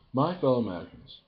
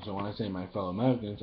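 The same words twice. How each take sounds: First: Stately "My fellow Americans", higher and louder; Obama impression. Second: Said in the usual way. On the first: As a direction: open like a president addressing the nation. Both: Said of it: "my impression of Obama".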